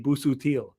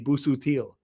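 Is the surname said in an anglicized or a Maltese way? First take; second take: Maltese; Maltese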